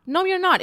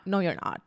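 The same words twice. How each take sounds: First: NOT pitched far higher and louder; emphatic denial. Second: Said in the usual way. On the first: Real, not acted. Vlogger shooting down a scary prediction, emphatically. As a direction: shut the fear down hard. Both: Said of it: "scare you".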